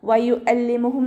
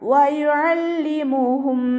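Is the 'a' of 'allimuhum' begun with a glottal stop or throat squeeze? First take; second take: glottal stop; throat squeeze. First: The vowel starts with a plain glottal stop. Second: The vowel starts with a squeezed throat sound. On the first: The speaker calls it wrong. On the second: The speaker calls it right.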